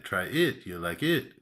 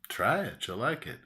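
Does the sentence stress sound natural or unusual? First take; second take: unusual; natural. First: The sentence stress falls in an unusual place. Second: The sentence stress follows the natural pattern.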